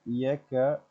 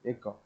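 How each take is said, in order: First: The word begins with a 'y' glide sound. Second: The word begins directly with a vowel sound. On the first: The speaker calls it wrong. "the her pronunciation of Odisha is like Desa. Desa Yeka" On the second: The speaker calls it right. "that means Eka"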